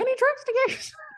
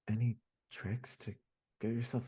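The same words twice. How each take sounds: First: It is read in a high cartoon mouse voice. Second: It is read in a sad, downcast voice. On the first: "Now do it as Mickey Mouse" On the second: "on a day when you're really sad"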